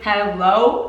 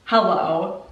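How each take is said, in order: First: Slow stretched hello?; drawn-out hello. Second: Said in the usual way. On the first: Real, not acted. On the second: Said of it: "Like, hello?".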